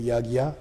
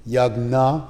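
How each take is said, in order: First: The middle cluster is said with a g-y sound. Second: The middle cluster is said with a g sound. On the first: "normally said North India" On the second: "you skip the J altogether"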